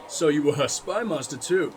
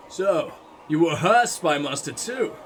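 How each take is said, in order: First: Spy stressed, her left light. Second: Her stressed with a rising tune. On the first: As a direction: punch spy, keep her unstressed. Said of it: "But no, it was". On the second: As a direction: lean on her, not on spy. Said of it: "that was obviously meant to be like". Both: Shown as a demonstration.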